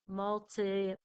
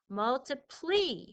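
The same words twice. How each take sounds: First: The final vowel is an 'eye' sound. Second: The final vowel is an 'ee' sound. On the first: The speaker calls it right. "this time I'm going to make the Y an I sound" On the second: The speaker calls it wrong. "the Y says an E sound"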